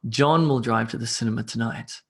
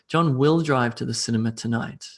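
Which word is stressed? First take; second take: John; will. First: The stress falls on the word John. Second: The stress falls on the word will. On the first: It is John, not someone else, who drives. "putting emphasis on the person there" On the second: He is definitely going, despite doubts. "I put emphasis on the will aspect of the sentence"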